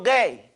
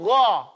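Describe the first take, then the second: First: "gay" with a hard g; English-style g and ay in "gay"; wrong pronunciation. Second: "gha" with a throaty gh; open, back-of-throat "gha", no ay vowel; correct gha sound. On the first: Teacher warns what gha doesn't do, mispronounced "gay". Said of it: "the gha doesn't go gay". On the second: Teacher shows how it goes, throaty "gha". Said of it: "It goes gha". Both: Shown as a demonstration.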